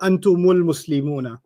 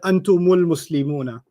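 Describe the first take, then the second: First: Antum runs into the next word through mu. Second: The same.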